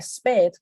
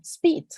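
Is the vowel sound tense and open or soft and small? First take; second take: open; soft and small. First: The vowel is said open, Spanish-style. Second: The vowel is soft and small, mouth barely open. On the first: The speaker calls it wrong. "Uno diría speed" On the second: The speaker calls it right. "Está muy suavecita, muy chiquitica, sin abrir mucho la boca"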